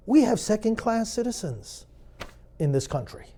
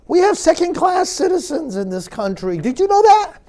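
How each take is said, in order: First: Said in the usual way. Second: Mock-astonished, higher and a bit louder, dripping irony; sarcastic. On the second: Shown as a demonstration. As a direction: announce it as if it were shocking news. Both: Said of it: "I'm getting sarcastic".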